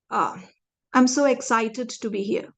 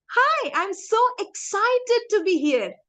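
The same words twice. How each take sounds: First: Said in the usual way. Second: Smiling, excited. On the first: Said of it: "let me just have a blank face and say". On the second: Shown as a demonstration. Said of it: "when I smile and say that".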